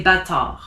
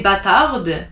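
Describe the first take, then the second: First: Bâtard ending on the R, no D; silent final D. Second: Bâtarde with the last D sounded; mispronounced final D. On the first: Teacher showing students how to say it, silent D. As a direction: drop the D at the end of bâtard. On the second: Teacher showing what not to say, sounded D. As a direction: let a D ring out at the end of bâtarde. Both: Shown as a demonstration. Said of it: "you don't pronounce the D".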